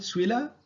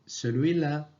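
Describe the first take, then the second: First: The sounds of E and L are dropped. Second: The first syllable "ce" is pronounced in full. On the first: This is the everyday spoken form. "Les lettres E L disparaissent dans le mot celui" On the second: This is the written form. "À l'écrit"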